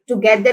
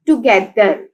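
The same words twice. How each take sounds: First: Said in the usual way. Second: together measured out as to-ge-ther; teacher parting to, ge, ther in together; syllable by syllable. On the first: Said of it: "three syllables हैं". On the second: Shown as a demonstration. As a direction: sound out together in three beats. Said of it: "together के three syllables हैं".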